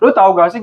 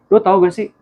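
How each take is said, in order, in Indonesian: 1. Suaranya terdengar keras dan konfrontatif. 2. Suaranya terdengar hangat dan penuh kasih sayang. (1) "lu kayak mau ngajakin ribut gitu" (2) "lu tunjukin dia, ekspresi sayang lu"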